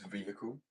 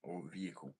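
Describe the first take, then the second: First: Vehicle said VEE-hi-kul with the h sounded; British pronunciation. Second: Vehicle said VEE-uh-kul, h dropped; American pronunciation. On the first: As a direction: vehicle with a clear h. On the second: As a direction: vehicle without the h. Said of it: "the other one is vehicle". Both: Shown as a demonstration.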